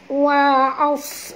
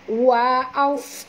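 No difference in how they are said.

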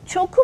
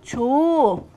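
First: The middle consonant is a hard k. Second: The middle consonant is a soft g. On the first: The speaker calls it wrong. "Çoku mu diyorum? Hayır" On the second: The speaker calls it right. "yumuşama kuralına uyuyor"

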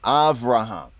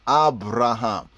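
First: The second consonant is a soft v sound. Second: The second consonant is a firm b sound. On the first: It reflects a Yiddish influence on the Hebrew. "They will say basically the B as in a more softer way... it sounds like a V sound. That is Yiddish influence" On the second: It reflects the original Hebrew enunciation. "Hebraically, it will be Abraham, and an African Shemitic enunciation"

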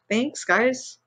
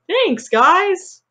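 First: The thanks is said in a flat, serious tone. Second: The thanks is said in a bright, cheerful tone. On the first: The speaker calls it wrong. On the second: The speaker calls it right.

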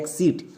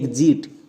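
First: The x is sounded as ks. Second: The x is sounded as gz. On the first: The speaker calls it wrong. "একে অনেকে ভুল করে উচ্চারণ করছো এক্সিট" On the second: The speaker calls it right. "এর উচ্চারণটা হবে এক্সিট"

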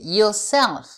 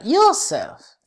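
First: The stress is on the second syllable. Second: The stress is on the first syllable. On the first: The speaker calls it right. "C'est sur la deuxième, la deuxième syllabe" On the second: The speaker calls it wrong. "c'est pas"

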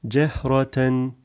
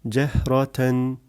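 No difference in how they are said.

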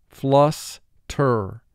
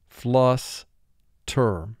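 Both takes have the same delivery.

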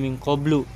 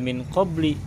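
First: The word ends in a u vowel. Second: The word ends in an i vowel. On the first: The speaker calls it right. "tetapi bacanya min qablu" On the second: The speaker calls it wrong. "tetapi tidak min qabli"

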